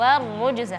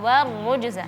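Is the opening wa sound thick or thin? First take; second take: thin; thin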